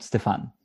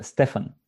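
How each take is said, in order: First: Stefan with an "eh" vowel, "Ste-fen"; wrong pronunciation. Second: Stefan with the vowel as in "fan"; correct pronunciation. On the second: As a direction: say Stefan the Bulgarian way, "Ste-fan". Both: Shown as a demonstration. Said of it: "not Stefan".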